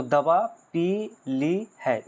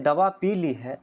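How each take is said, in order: First: दवा, पी, ली, है set apart, slowly; slow word-by-word दवा पी ली है with small breaks; pauses between words. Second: Said in the usual way. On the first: Shown as a demonstration. Teacher showing juncture, दवा पी ली है broken into separate words. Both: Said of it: "इस प्रकार से होता है".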